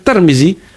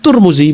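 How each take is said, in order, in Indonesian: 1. Dua suku kata pertama memakai e dan i. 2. Dua suku kata pertama memakai u dan u. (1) "bukan Termizi" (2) "bukan Turmuzi"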